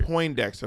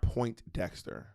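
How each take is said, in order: First: No t sound is heard after 'Poin'. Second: A clear t sound is heard after 'Poin'. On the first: The speaker calls it right. "Poindexter, not Point Dexter" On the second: The speaker calls it wrong. "not Point Dexter"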